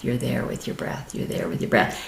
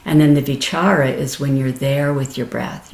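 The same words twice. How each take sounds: First: Softer each time until only breath; settling into stillness, hushed; fading to a whisper. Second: Said in the usual way. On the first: Shown as a demonstration. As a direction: let the words dissolve into a whisper.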